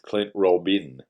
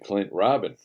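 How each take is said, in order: First: The surname is said with French, Cajun-style sounds. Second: The surname is said with plain English sounds. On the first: The speaker calls it right. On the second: The speaker calls it wrong.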